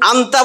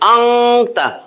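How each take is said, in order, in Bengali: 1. n-টি স্পষ্ট n হিসেবে উচ্চারিত হয়। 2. n লুকানো থাকে, গুন্নার মতো শোনায়। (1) "আন্তা বললে ভুল হবে, মানে অশুদ্ধ হবে" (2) "এবং গুন্না হবে"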